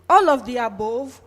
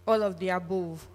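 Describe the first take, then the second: First: Louder incredulous rise on All of the above?; can't believe everyone picked all of them; surprised question. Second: Said in the usual way. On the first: Real, not acted. Reacts to poll result in disbelief.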